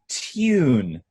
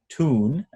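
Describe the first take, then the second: First: It is said in a British accent, with 'tyoon'. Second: It is said in an American accent, plain 'toon'. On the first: "Brits say tune" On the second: "as an American would say"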